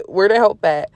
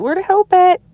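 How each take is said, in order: First: Chuckling through "Where the help at"; laughing repeat. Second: High, louder, whiny "where the help at"; mock plea to God. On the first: Real, not acted. Preacher laughing at her own complaint to God. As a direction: laugh as you say it again. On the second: Preacher voicing her own despair to God, high mock whine. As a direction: squeal it like an impatient child.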